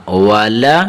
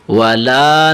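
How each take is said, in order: First: والا with both vowels short; short ending. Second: والا with the final laa stretched long; wrongly lengthened ending. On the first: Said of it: "لمبا نہیں کرنا". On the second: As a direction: drag the last vowel of والا. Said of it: "والا نہیں پڑھنا آپ نے". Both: Shown as a demonstration.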